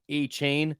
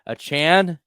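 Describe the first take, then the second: First: The name sounds like the words 'a chain'. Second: The name does not sound like 'a chain'. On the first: The speaker calls it wrong. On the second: The speaker calls it right.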